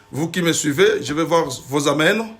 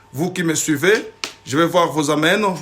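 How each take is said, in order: The two takes are said the same way.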